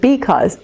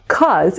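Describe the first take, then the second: First: Both syllables are said, giving 'because'. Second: The first syllable is dropped, leaving 'cause'. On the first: The speaker calls it right. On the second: The speaker calls it wrong.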